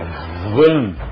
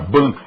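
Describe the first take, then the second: First: The word starts with a v sound. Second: The word starts with a b sound. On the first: The speaker calls it right. "é van" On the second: The speaker calls it wrong. "isto aqui não é ban"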